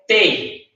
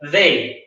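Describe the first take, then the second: First: The word begins with a hard T sound. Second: The word begins with a soft TH sound. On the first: The speaker calls it wrong. "con la T" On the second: The speaker calls it right. "con la lengua entre los dientes"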